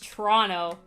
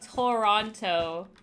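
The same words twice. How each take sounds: First: The T sounds are dropped and the word is clipped. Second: Every T sound in the word is clearly pronounced. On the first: This is how Canadians say it. The speaker calls it right. "Nobody here says it with all the T's" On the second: This is how Americans say it. The speaker calls it wrong. "people like say it like that in, in America"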